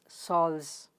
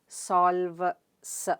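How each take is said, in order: First: The final s is joined into one cluster. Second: The final s is split off after a break. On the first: The speaker calls it right. "It's solves" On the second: The speaker calls it wrong. "You don't say"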